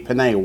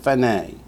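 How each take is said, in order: First: The word begins with a hard p sound. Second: The word begins with a soft f sound. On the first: This is the word's usual form. "It normally would be pene" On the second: The word follows a vowel sound here. "Why is it fene?"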